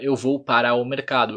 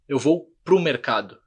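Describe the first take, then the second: First: Para o is said in full, syllable by syllable. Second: Para o is contracted into one short syllable. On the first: The speaker calls it wrong. "a gente não fala" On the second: The speaker calls it right. "eu falo"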